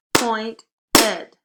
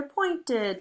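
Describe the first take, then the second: First: Pointed loud, broken into two beats, point and ed; clapped-out syllables. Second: Said in the usual way. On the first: Shown as a demonstration. Teacher clapping out syllables for pupils, Pointed in two loud beats. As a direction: punch both syllables of Pointed separately and loudly. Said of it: "clap it out". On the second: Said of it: "Word all together".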